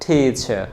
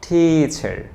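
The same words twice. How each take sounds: First: The final r sound is dropped. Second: The final r sound is pronounced. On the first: "British বলবে টিচার" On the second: "আর এটাকে আমেরিকানরা কি বলবে?"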